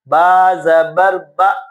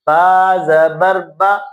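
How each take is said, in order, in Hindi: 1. आख़िरी स्वर चिकना है, न झटके से, न खींचकर। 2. आख़िरी स्वर चिकना है, न झटके से, न खींचकर।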